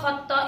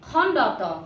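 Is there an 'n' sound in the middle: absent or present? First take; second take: absent; present. First: The middle has no 'n' sound. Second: The middle has an 'n' sound. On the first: The speaker calls it wrong. "এইবিলাক নহয়" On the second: The speaker calls it right. "ইয়াৰ নাম হৈছে খণ্ডত"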